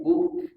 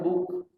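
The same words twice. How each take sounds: First: The lips are pulled open on the sound. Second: The lips stay closed on the sound. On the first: The speaker calls it right. "tarik bibirnya" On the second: The speaker calls it wrong. "Jangan buk"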